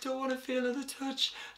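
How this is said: The voice has a tearful, crying quality. The speaker is on the verge of tears. "on the verge of tears and I had this sort of cry quality"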